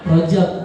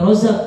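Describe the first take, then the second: First: The middle consonant is a 'j' sound. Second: The middle consonant is a 'z' sound. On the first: The speaker calls it right. "Yang benar adalah ro rojab" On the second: The speaker calls it wrong. "bukannya rozab ya"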